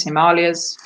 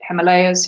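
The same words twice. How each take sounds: First: Himalayas said hi-MAH-lee-uhz; alternative pronunciation. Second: Himalayas said him-uh-LAY-uhz; Himalayas, third syllable rhyming with day; first pronunciation. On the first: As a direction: stress the long MAH in Himalayas. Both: Shown as a demonstration. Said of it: "however you wish to pronounce it".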